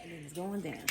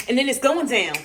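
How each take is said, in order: First: Much softer, tossed-off repeat; quiet echo of the chant. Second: Chanted, loud, punchy hype line; chanted, call it out like a hype man; loud excited chant; hyped chant. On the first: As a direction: let it fall away to a near murmur. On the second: Hyped chant over cooking. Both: Real, not acted.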